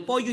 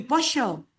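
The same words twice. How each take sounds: First: Pollo said as "poyo"; standard Y sound. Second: Pollo said as "posho"; Argentine sh sound. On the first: Teacher contrasting two accents, pollo with the standard Y. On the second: Teacher contrasting two accents, pollo with Argentine SH. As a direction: turn the LL of pollo into SH. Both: Shown as a demonstration. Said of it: "Ya no es una cuestión de pronunciación".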